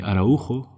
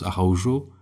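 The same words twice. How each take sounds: First: The name is said with Spanish pronunciation. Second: The name is said with French pronunciation. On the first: "In Spain, they call me Araujo" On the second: "When I was in France, I was Araujo"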